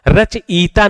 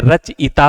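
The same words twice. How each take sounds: First: रचयिता with a drawn-out, higher long "ee" in the middle; wrong pronunciation. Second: रचयिता with a short "i" before "ta"; correct pronunciation. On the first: Teacher showing students the faulty रचयिता, mispronounced with long ee. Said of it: "नहीं होता है". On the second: Teacher giving students the right रचयिता, correctly pronounced. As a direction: say रचयिता evenly, keeping the i short. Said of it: "होता है". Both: Shown as a demonstration.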